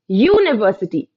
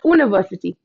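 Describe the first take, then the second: First: The word begins with a 'y' sound. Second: The word begins with a plain vowel sound. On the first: The speaker calls it right. "the starting sound of this word, students, is the year sound" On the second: The speaker calls it wrong. "not university"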